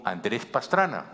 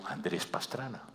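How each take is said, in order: First: "Andrés Pastrana" louder and slow, firm falling end; emphatic repeat. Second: Quiet name. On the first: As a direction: spell out "Andrés Pastrana" so the police hear it. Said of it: "¿Quién?". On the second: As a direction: mumble "Andrés Pastrana" without weight. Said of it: "me dice el policía, "¿Quién?". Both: Retold or imitated.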